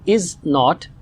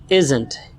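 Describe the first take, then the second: First: Not is said as a full separate word. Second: Not is reduced and joined to the verb. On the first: "The long form is" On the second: "contracted form is"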